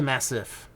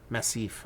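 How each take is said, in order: First: Said in the usual way. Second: "Massif" said mass-EEF with a French ending; "Massif" like the French word, stress on the last syllable; French-style Massif. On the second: Shown as a demonstration. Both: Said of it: "Not the Massive".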